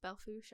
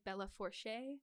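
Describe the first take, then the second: First: The name begins with one syllable, 'Bel'. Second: The name begins with two syllables, 'Bella'. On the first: This is how the name is actually said. The speaker calls it right. "It's Belfouche, I promise" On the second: This is how the spelling suggests it is said. The speaker calls it wrong. "It looks like Bella Fourche"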